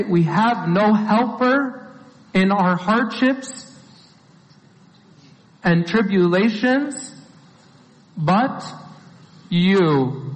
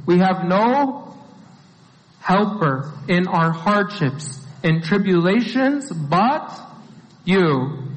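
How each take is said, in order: First: Chanted, slow, drawn-out prayer recital; chanted, recite it slowly like a familiar verse; measured, prayerful chant; slow chanted recitation. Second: Slow, spaced-out reading with pauses; slow deliberate restatement. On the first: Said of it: "we say things like this". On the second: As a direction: lay out each phrase slowly and clearly. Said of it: "It's a very clear statement". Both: Shown as a demonstration.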